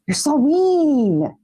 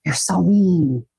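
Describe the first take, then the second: First: Drawn-out, higher playful pout; slow mock-offended whine; mock-hurt whine. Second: Said in the usual way. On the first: Real, not acted. Repeats the line, drawn out, higher.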